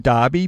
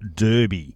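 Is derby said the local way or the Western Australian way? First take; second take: local; Western Australian. First: Derby is said the speaker's local way. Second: Derby is said the Western Australian way. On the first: This is how it is said on this side of the country. "we say derby because we're from here" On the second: This is how Western Australians expect it to be said. "if you're a Western Australian, they get very huffy if you don't say this"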